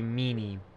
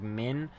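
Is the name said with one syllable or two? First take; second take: two; one. First: The name is said as two syllables. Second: The name is said as one short syllable. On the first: This is how the speaker reads it himself. "I still look at it and I still see Meanie" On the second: This is the pronunciation someone else suggested. "somebody said that they were pretty sure the pronunciation was like Min"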